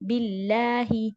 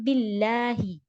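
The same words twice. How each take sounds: First: The L is a light Arabic L. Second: The same.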